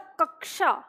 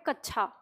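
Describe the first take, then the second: First: The middle sound is k followed by sh. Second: The middle sound is an aspirated chh. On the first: The speaker calls it right. "इसका उच्चारण है क और श।" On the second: The speaker calls it wrong. "हम उच्चारण नहीं कर पाते सही"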